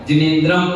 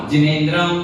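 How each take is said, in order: The two takes are said the same way.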